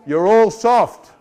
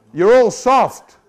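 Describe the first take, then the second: First: Slow, stressed "You're all soft."; emphatic repeat. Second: Slow, louder "You're all soft."; louder emphatic repeat. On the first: Preacher taunting the congregation, slow and stressed. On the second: Preacher taunting the congregation again, slow and louder. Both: Shown as a demonstration.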